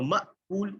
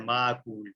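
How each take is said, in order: First: مأکول with a clear hamza glottal stop; correct hamza sound. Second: معقول with ain, said low and quick; the mistaken معقول, tossed off; wrong pronunciation. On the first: Teacher giving the right version after the mistake. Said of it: "یہ حمزہ والی sound ہوگی". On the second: Teacher showing a common mistake, low. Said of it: "بعض لوگ غلطی سے اس کو معقول پڑھ دیتے ہیں". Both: Shown as a demonstration.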